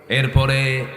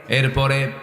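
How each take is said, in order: No difference in how they are said.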